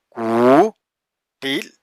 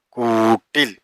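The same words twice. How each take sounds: First: കൂട്ടിൽ stretched very slowly; drawn out. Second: Said in the usual way. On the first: Shown as a demonstration. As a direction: linger on each sound of കൂട്ടിൽ. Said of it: "slow syllable demo". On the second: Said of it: "normal reading after demo".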